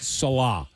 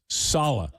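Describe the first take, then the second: First: The name is said not rhyming with Hala. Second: The name is said to rhyme with Hala. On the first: The speaker calls it wrong. "not Salah" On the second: The speaker calls it right. "it's Salah, like Hala Salah"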